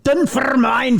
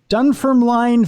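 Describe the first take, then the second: First: The name is said closer to a Scottish way. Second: The name is said in a plain anglicized way. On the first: The speaker calls it right. "Was that closer enough? / That was better" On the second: The speaker calls it wrong. "I hope I pronounced that right"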